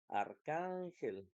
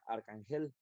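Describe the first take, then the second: First: The stress is on the middle syllable. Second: The stress is on the last syllable. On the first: The speaker calls it right. "la sílaba tónica va a ser can, que es la penúltima" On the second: The speaker calls it wrong. "Si fuera la última"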